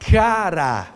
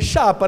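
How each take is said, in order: First: The word is pronounced with r in the middle. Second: The word is pronounced with p in the middle. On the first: The speaker calls it right. "É assim que pronuncia" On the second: The speaker calls it wrong. "A senhora falaria o que aí? Chapa, né?"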